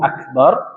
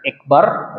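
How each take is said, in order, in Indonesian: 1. Vokal pertama adalah 'a' yang penuh dan terbuka. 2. Vokal pertama adalah bunyi 'e' yang tipis. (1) "Allahu Akbar" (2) "bukan ekbar gitu kan"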